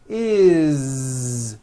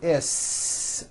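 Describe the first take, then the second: First: It ends in a voiced z sound. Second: It ends in an unvoiced s sound. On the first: The speaker calls it right. "with a voiced Z" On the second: The speaker calls it wrong. "It's never is unvoiced"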